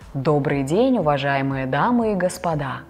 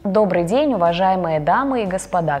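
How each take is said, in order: First: The voice is deep, open and uses low notes. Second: The voice is thin, closed, on one or two notes.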